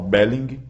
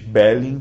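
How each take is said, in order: First: It ends with a clearly audible g sound. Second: It ends in a nasal ng with no g. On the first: The speaker calls it right. "em alemão você pronuncia o G ao final" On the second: The speaker calls it wrong. "não é o gerúndio do inglês Belling, que termina em N G"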